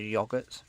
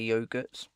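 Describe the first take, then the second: First: It uses the British pronunciation of the word. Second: It uses a non-British pronunciation of the word. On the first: "here in the U K, we pronounce it as yogurts" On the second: "some people will say yogurts"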